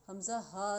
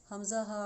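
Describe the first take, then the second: Both takes have the same delivery.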